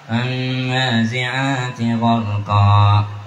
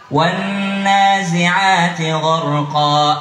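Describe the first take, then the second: First: It is voiced through the nose. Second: It is voiced through an open mouth. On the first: The speaker calls it wrong. "Hidung sengoy-sengoy" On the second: The speaker calls it right. "Buka mulutmu nak"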